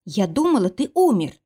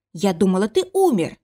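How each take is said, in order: First: First take, voice rising and cracking on умер; shaky confession. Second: Repeated outburst. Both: Acted. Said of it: "Ты повторяешься!".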